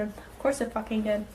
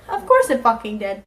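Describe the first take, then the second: First: Quiet resigned grumble; muttered aside. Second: Said in the usual way. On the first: Shown as a demonstration. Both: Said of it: "repeated line, said two ways".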